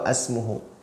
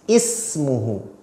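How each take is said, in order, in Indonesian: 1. Kata ini diawali dengan vokal a. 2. Kata ini diawali dengan vokal i. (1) "atau asmuhu" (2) "pasti dibaca i"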